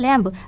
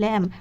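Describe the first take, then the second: First: The word ends with an audible b sound. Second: The word ends with m, b silent. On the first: This is how the word is written. "লেখার সময় কি লিখবো ল্যাম্ব" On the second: This is how the word is spoken. "উচ্চারণ করার সময় মুখে বলবো কি ল্যাম"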